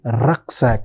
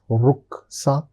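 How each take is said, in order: First: It is pronounced the English way. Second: It is pronounced the German way. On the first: "as it is said in English" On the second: "in German we call it as Rucksack"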